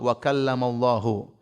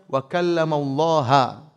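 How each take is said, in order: First: The word Allah ends with a 'u' vowel. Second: The word Allah ends with an 'a' vowel. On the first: God is the one who speaks. The speaker calls it right. "Allahnya di dhamma" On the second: God is the one spoken to. The speaker calls it wrong. "Kata mereka, harusnya dibaca wa kallamallaha. Allah objek"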